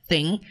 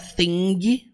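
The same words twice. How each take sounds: First: The word ends without any g sound. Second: The word ends with an audible g sound. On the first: The speaker calls it right. "você fala thing" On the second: The speaker calls it wrong. "você não fala thing"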